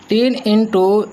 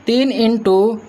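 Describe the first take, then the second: No difference in how they are said.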